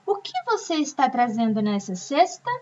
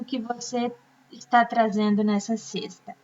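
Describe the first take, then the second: First: It is read with a questioning intonation. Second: It is read flat, without question intonation. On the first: The speaker calls it right. "Eu preciso ter a entonação da pergunta" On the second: The speaker calls it wrong. "eu não posso ler assim"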